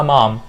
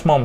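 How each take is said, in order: First: MOM as open "mahm"; corrected vowel. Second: MOM said with rounded "o"; wrong vowel demo. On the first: Teacher giving the accepted version, open-vowel MOM. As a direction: give MOM a long "ah". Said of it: "بنقولها". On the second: Teacher rejecting this version, rounded-vowel MOM. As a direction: avoid "ah", round MOM's vowel. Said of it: "ما بنقولهاش". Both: Shown as a demonstration.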